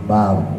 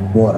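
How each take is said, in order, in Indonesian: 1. Vokalnya tetap terbuka, dengan r yang berat. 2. Vokalnya membulat, terdengar seperti o. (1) "tapi bau" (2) "bukan jadi o, bukan bor"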